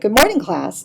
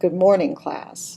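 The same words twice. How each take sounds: First: The greeting is said with lively, high energy. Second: The greeting is said with flat, low energy. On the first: "a person who's trying to get some energy up" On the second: "You get a very different idea"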